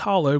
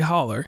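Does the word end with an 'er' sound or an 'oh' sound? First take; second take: oh; er. First: The word ends with an 'oh' sound. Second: The word ends with an 'er' sound. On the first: This is the standard form of the word. The speaker calls it wrong. "the word is actually hollow" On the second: This is how locals in West Virginia say it. The speaker calls it right. "but we do say holler"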